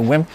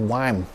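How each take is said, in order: First: The name keeps its Dutch pronunciation. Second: The name is given an English-style pronunciation. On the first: "you can still say Wim" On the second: "why isn't it Wime?"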